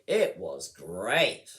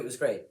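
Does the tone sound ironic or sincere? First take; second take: ironic; sincere. First: The tone sounds ironic and exaggerated. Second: The tone sounds sincere and straightforward. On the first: The speaker means the opposite. The speaker calls it right. "then you know immediately they mean the opposite" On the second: The speaker truly enjoyed it. The speaker calls it wrong. "You wouldn't say"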